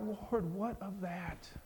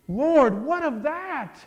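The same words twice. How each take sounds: First: It sounds like a sad, pleading question. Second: It sounds like a joyful, amazed exclamation.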